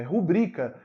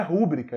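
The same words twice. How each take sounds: First: Rubrica stressed on the middle syllable; ru-BRI-ca, middle syllable strong. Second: Rúbrica stressed on the first syllable; RÚ-bri-ca, first syllable strong. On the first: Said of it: "é rubrica". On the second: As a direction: hit RÚ in rúbrica. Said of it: "A palavra não é rúbrica". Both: Shown as a demonstration.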